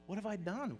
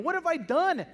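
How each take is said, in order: First: Soft, hushed regret; quiet anguish. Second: Loud, high cry of horror; anguished cry. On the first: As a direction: breathe it out, broken and alone. Peter weeping alone. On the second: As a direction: wail it out in shock at yourself. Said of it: "imagine what Peter's feeling". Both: Acted.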